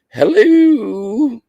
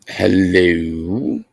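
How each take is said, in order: First: It is said in a Mrs. Doubtfire voice. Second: It is said in his normal voice.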